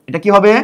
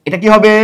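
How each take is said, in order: The two takes are said the same way.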